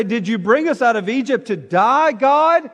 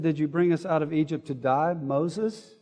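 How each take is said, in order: First: Raised, rising complaint to God; complaining cry. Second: Much softer, trailing grumble at Moses; muttered complaint. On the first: Israelites in the desert, complaining loudly to God. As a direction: let the complaint climb to a loud "God?". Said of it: "they start complaining and say". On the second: Israelites grumbling at Moses, softly muttered. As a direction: drop it to a sulky mutter. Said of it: "They said". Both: Retold or imitated.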